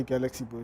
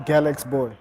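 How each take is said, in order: First: Put-on "Galaxy" in three syllables, GAL-ak-see, then Boy; common mispronunciation, Galaxy Boy. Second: Put-on "Galax" in two syllables, GAL-aks, then Boy; brand-name pronunciation, Galax Boy. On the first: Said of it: "a lot of people say". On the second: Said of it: "how do you pronounce your brand". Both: Shown as a demonstration.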